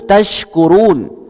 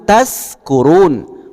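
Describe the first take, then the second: First: The middle consonant is a sh sound. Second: The middle consonant is a plain s sound. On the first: You may be among the grateful. The speaker calls it right. "Tashkurun pakai sya, bersyukur" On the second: You may be among the drunk. The speaker calls it wrong. "Taskurun pakai sin, sa, mabuk"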